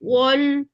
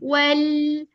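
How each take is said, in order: First: The vowel is said with rounded lips. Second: The vowel is said with unrounded lips. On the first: The speaker calls it wrong. "होंठ गोल ही रह गए थे" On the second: The speaker calls it right. "उसके ऊपर अनरोल हो जाना है हमारे होंठ"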